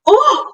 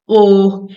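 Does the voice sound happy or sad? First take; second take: happy; sad. First: It is said in a happy way. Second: It is said in a sad way.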